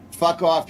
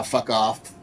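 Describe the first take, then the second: First: Fuck off pushed higher and louder; louder mock yell. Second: Said in the usual way. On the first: Judge telling Newsom off, loud and higher. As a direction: bark Fuck off like you mean it. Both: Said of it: "and a judge said".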